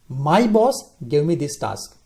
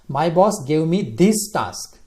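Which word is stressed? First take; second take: boss; task. First: The stress is on "boss". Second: The stress is on "task".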